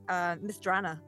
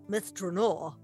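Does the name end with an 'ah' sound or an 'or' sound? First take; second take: ah; or. First: The name ends in an open 'ah' vowel. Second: The name ends in an 'or' sound. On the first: This is how the game says the name. The speaker calls it right. "Mistrana was the big one for me" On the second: This is how the group said the name. The speaker calls it wrong. "as we called it"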